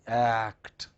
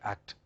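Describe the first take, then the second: First: The word is said slowly with a full vowel. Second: The word is said quickly with a clipped vowel. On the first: The speaker calls it right. "We don't say act" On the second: The speaker calls it wrong. "we say act. ... we are in a hurry"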